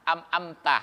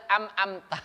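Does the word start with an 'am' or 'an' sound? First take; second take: am; am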